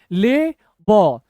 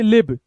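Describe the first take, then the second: First: Slow, each letter held apart; broken into letters. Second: Said in the usual way. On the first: Shown as a demonstration. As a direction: show how to break the word up. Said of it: "अब तोड़ना कैसे ये देखिए". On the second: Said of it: "ये दो ही अक्षर पढ़िए".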